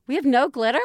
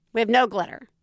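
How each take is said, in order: First: Disbelieving question. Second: Said in the usual way. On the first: Retold or imitated. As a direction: echo it back in mild disbelief. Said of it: "She's like, "Oh, okay".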